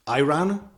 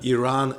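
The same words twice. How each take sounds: First: It sounds like the drink ayran. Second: It is said unlike the drink ayran. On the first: It names a dairy drink. "Iran is this fantastic dairy drink" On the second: It names the country. "Why do I say um, Iran"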